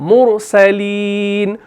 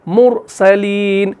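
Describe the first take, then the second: The two takes are said the same way.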